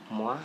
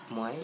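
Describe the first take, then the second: First: The name is said like French 'mwa'. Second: The name is said to rhyme with 'boy'. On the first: "hindi daw yun Moy. Moi daw" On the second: "binabanggit ko sa tita ko is Moy"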